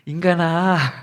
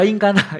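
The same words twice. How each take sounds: First: It is said in a gentle, calling tone. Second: It is said in a harsh, scolding tone. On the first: The speaker is kindly entrusting a duty. The speaker calls it right. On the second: The speaker is scolding the listener. The speaker calls it wrong.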